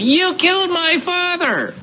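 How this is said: It is said in a whiny, complaining tone.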